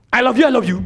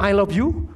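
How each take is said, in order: First: Brusque, loud, hurried love declaration; wrong tone. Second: Said in the usual way. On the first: Shown as a demonstration. Trainer showing how tone spoils "I love you", brusque and loud. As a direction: throw "I love you" out hard and loud, without tenderness. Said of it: "Anda ngomongnya gini". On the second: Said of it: "ketika Anda ngomong".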